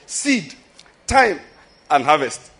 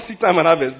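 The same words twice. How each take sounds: First: Each word is separated by a short pause. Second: It is said as one phrase without pauses.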